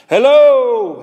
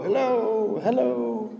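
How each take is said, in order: First: Loud, high drawn-out holler; calling into cave. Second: High, soft echoes of a call; imitated echo. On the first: Acted. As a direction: shout hello into a cave. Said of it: "standing at the mouth of the cave saying". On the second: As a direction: echo it back softly, high.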